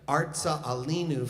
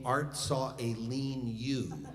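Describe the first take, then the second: First: The second word begins with an 'ah' vowel. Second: The second word begins with an 'eh' vowel. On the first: The speaker calls it right. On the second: The speaker calls it wrong.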